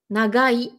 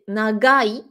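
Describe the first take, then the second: The two takes are said the same way.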